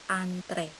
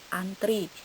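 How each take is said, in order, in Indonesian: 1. Kata itu diucapkan dengan lafal baku. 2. Kata itu diucapkan dengan lafal tidak baku.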